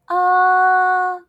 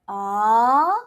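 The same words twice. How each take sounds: First: The pitch stays high and level. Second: The pitch rises from middle to high. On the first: "I'm going to say all four tones" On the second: "as if you're asking people question"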